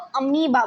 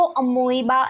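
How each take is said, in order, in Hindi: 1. बीच का स्वर 'ee' जैसा है। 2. बीच का स्वर 'oy' जैसा है। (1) "उसको अमीबा बोलते हैं" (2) "उसको अमोइबा नहीं बोलते हैं"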